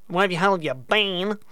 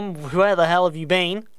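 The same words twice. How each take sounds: First: Light Australian twang on the question; Australian accent. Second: Said in the usual way. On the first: Shown as a demonstration. Radio DJ greeting new listeners in light Australian accent. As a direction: say it again with a mock Australian lilt. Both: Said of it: "In an Australian accent".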